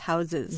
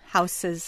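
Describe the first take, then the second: First: The middle consonant is a buzzing Z sound. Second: The middle consonant is a hissing S sound. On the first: "instead of what sounds like a Z" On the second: "So an S sound"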